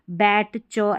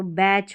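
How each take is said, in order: First: बैट च in two separate parts; split pronunciation. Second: बैच joined as one syllable; silent T. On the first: Teacher breaking up the word for learners, बैट च split. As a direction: sound the t of बैट, then च alone. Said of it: "ऐसे पढ़ दिया". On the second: Teacher showing the finished word, बैच without separate T. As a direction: say बैच with ch straight after the vowel. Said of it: "आपको ट नहीं पढ़ना है". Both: Shown as a demonstration.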